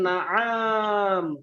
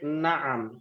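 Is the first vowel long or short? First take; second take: long; short. First: The first vowel is drawn out long. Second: The first vowel is kept short. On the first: The speaker calls it wrong. "Bukan naam, tidak panjang" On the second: The speaker calls it right. "Tapi pendek naam"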